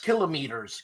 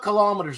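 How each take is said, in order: First: The word is said in a Greek-style way. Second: The word is said the ordinary way. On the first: The speaker calls it right. "You say it like a Greek" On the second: The speaker calls it wrong. "it's not kilometers"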